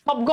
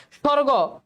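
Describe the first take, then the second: First: "স্বর্গ" as shob-go, with the silent ব sounded; spelling pronunciation. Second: Said in the usual way. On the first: Shown as a demonstration. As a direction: put an audible b into "স্বর্গ". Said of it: "স্বর্গ হওয়ার কথা". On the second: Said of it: "বয়ের কোনো উচ্চারণ নাই".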